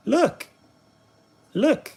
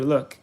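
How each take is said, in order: First: Sing-song high look. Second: Said in the usual way. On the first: Acted. Repeated Look, pitched up.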